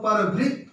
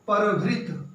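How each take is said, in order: First: The final t is said with a vowel. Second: The final t is said with no vowel. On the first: It means cuckoo. "पूरता का उच्चारण हो रहा है" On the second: It means crow. "त में हलंत लगा है।"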